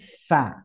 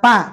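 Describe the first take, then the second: First: The first sound is breathed between lip and teeth. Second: The first sound is a stop using both lips. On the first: The speaker calls it right. "tapi fa" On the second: The speaker calls it wrong. "Tidak pak"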